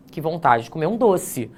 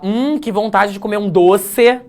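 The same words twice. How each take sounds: First: Said in the usual way. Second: "doce" ending on a clear closed e, pitch up; mock e pronunciation. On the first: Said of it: "Você pronuncia com I". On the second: Shown as a demonstration. Teacher mocks reading "doce" literally to the class. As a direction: mimic someone saying "doce" as written, with an e. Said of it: "você vai falar".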